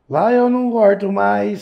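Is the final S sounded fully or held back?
fully. The final S is sounded fully.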